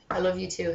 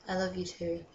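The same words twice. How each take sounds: First: Said in the usual way. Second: I love you too, much softer and dropped away; soft repeat. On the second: Pretend. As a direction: let it fade to a mock tender hush.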